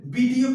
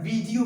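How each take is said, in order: First: वीडियो with a b at the start; wrong pronunciation. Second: वीडियो with a v at the start; correct pronunciation. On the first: Teacher asking about the mistake, वीडियो starting with b. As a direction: say वीडियो as "BEE-dio". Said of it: "क्या बोला जाता है". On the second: Teacher answering, वीडियो starting with v. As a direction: say वीडियो as "VEE-dio". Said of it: "वीडियो बोला जाता है". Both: Shown as a demonstration.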